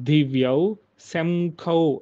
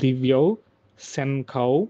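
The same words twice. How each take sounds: First: The nasal in shankhau sounds like m. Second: The nasal in shankhau sounds like n. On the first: The speaker calls it wrong. "శం మ్ అని చదువుకునేవాళ్ళం" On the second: The speaker calls it right. "అలా కాదు దివ్యౌ శంఖౌ న్ అని రావాలి"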